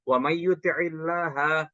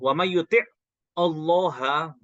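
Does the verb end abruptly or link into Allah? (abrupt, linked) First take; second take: linked; abrupt. First: The verb links into Allah with an i. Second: The verb stops abruptly before Allah. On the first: The speaker calls it right. "kan lebih enak" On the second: The speaker calls it wrong. "seperti itu kan tidak enak"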